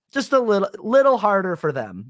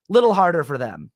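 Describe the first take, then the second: First: "little" repeated and pushed up high for sarcastic emphasis; sarcastic underline on "little"; stress on little. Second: Said in the usual way. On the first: Pretend. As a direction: lean hard on "little" with a sly lift. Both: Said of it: "I would be like".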